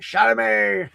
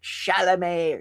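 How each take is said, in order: First: The name is said imitating another person's pronunciation. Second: The name is said in the speaker's usual way.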